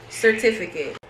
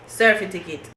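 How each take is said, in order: First: Said in the usual way. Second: "certificate" as sur-FIT-i-kit; Jamaican mispronunciation. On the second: Shown as a demonstration. Showing how Jamaicans mispronounce "certificate", as surfitikit. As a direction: swap the t and f in "certificate". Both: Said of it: "words that Jamaicans mispronounce".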